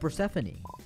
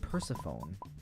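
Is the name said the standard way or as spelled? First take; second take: standard; as spelled. First: The name is pronounced the standard way. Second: The name is pronounced as it is spelled.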